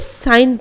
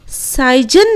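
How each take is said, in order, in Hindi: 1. n से पहले कोई अतिरिक्त व्यंजन सुनाई नहीं देता। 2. n से पहले एक अतिरिक्त व्यंजन सुनाई देता है। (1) "बल्कि साइन पढ़ते हैं" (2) "साइजन नहीं पढ़ते हैं"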